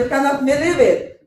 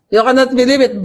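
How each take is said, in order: First: High, loud mock British accent. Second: Loud, high mock British accent. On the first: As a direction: imitate a British accent, excited and amused. (ginagayang British accent, mataas at malakas) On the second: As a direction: put on an exaggerated British accent, amused. (pabirong British accent, malakas) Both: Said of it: "British accent".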